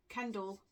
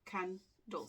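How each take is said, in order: First: Said in the usual way. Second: "candle" in two parts, "can" and "dle", with a gap; split into syllables. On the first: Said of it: "this just shows". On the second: Shown as a demonstration. Teacher showing the syllables, word split in two. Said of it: "the syllables".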